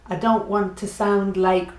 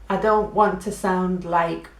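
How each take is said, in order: No difference in how they are said.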